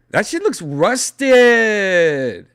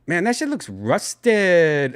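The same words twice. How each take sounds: First: Put-on louder, slower Latino accent; exaggerated Latino accent. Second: Put-on Latino accent. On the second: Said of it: "I sounded very Latino".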